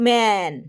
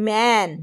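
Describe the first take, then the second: Both takes have the same delivery.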